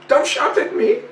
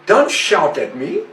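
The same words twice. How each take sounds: First: Much higher mock parrot protest; squeaky imitated parrot repeating itself; parrot squawk. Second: Mild imitation of the parrot, close to own voice; a hint of a parrot scolding; parrot's protest. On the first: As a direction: jump way up like the squawking bird. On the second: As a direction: lightly mimic the bird telling you off. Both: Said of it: "she will just say".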